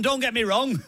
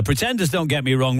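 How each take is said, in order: First: Breaking into laughter, pitched high; laughing drama line. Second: Said in the usual way. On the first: Acted. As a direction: giggle through the dramatic plea. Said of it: "there's a whole drama in this". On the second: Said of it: "song titles of the last three songs".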